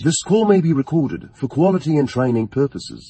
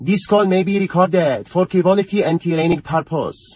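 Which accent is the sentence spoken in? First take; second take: English; Persian. First: It is spoken in an English accent. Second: It is spoken in a Persian accent.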